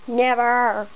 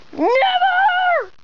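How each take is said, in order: First: Much lower second character voice; low-voiced refusal. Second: High, drawn-out squealed never; defiant play refusal. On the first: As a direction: drop low for a firm refusal. Same word answered in low voice. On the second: Pretend. Patient refuses in a play scene.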